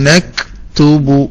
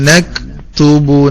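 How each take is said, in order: Both takes have the same delivery.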